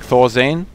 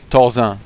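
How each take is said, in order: First: The name is said with English pronunciation. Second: The name is said with French pronunciation.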